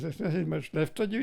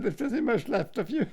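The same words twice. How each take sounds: First: Said in the usual way. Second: "There's nothing much left of you" said higher, with more weight; emphatic re-quote. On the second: Retold or imitated. Old man stressing his brother's exact words. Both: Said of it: "That's the very words he said".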